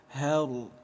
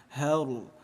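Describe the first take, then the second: Both takes have the same delivery.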